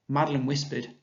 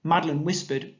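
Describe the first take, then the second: First: Said in the usual way. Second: Madeline whispered then a clear pause at the comma; pause after comma. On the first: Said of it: "start your sentence with it". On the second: Shown as a demonstration. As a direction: stop briefly after "whispered". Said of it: "so you can hear the pause".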